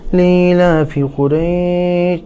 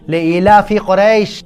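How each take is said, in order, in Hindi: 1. यह हल्के से कहा गया है, बिना ज़ोर के। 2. यह ज़ोर से और भारी ज़ोर के साथ कहा गया है। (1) "तो ऐसे नहीं कि" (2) "जोर से और जोर लगा के महसूस करके पढ़ना है"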